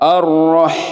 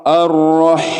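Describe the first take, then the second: The two takes are said the same way.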